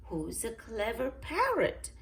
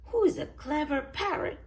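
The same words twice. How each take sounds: First: A touch higher, coaxing a pet parrot; lightly voiced granny. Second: High, loud parrot echo. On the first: Granny Pig coaxing her parrot, lightly voiced. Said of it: "Granny Pig says". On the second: Polly repeats Granny Pig's words, parrot voice. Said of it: "says Polly". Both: A narrator's reading.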